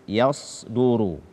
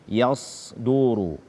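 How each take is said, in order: No difference in how they are said.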